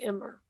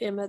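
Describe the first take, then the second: First: The name ends with an added R sound. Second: The name ends in a plain vowel, no R.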